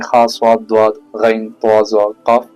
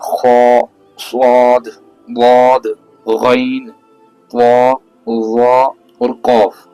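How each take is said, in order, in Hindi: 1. अक्षर पतले और हल्के सुनाई देते हैं, होंठ गोल नहीं होते। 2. अक्षर भारी और गहरे सुनाई देते हैं, होंठ गोल होते हैं। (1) "अब ये ऐसे नहीं" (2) "इसको हमें पढ़ने का तरीका ये है"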